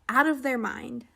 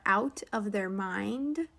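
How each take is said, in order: First: The phrase is said quickly with run-together words. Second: The phrase is said slowly with separate words.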